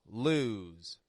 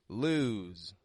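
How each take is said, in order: No difference in how they are said.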